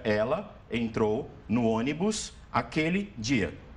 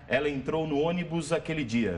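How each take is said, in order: First: The words are separated; the s sounds like s. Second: The words run together; the s sounds like z. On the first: "Se a gente falar separadamente" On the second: "se a gente falar direto"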